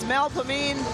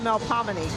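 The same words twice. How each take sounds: First: It is said the local New Orleans way. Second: It is said the standard, original way. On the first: The speaker calls it wrong. "it's wrong in New Orleans" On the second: The speaker calls it right. "that's really Melpomene"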